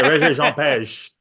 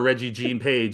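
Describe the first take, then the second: First: The first name is said with a stylised inflection. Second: The first name is said plainly as Reggie. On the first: The speaker calls it right. "I keep saying his name with a certain inflection" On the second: The speaker calls it wrong. "and that's terrible"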